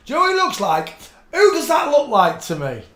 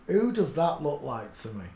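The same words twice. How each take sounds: First: High, loud and excited; excited shout. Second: Said in the usual way. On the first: Real, not acted. Shouting at a photo she recognizes, excited. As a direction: burst out on recognizing a face.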